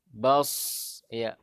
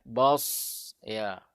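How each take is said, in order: The two takes are said the same way.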